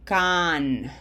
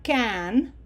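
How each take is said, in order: First: "can" with a wide-open "ah", like "kahn"; open Spanish A. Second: "can" with a flat English short A, as in "cat"; wrong English vowel. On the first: Teacher shows learners the right vowel, open "ah" in "can". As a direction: open the mouth big on "can", drawn out as "kaaahn". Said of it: "open our mouth big for this A". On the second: Teacher shows learners what to avoid, English-sounding "can". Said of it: "This is not can". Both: Shown as a demonstration.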